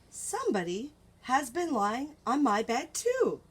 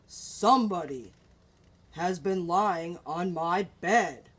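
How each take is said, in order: First: It is said in a soft, gentle voice. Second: It is said in a deep, gruff voice.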